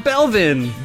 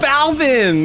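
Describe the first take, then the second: First: The first vowel sounds like 'eh'. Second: The first vowel sounds like 'ah'. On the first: The speaker calls it wrong. "not Belvin" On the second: The speaker calls it right. "It's Balvin"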